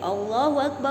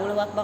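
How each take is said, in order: First: The syllables are slowly drawn out and lengthened. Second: The syllables are said quickly, at a brisk pace. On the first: This is the call to prayer. "dipanjangkan seperti itu maksudnya ya" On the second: This is the call to stand for prayer. "Jadi kalau iqomah itu suaranya dicepetin"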